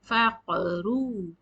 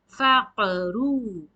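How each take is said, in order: First: The q is released with an echoing bounce. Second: The same.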